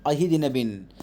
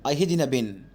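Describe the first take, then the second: Both takes have the same delivery.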